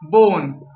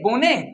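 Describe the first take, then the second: First: The word ends on the bare consonant. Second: An extra vowel follows the final consonant. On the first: The speaker calls it right. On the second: The speaker calls it wrong.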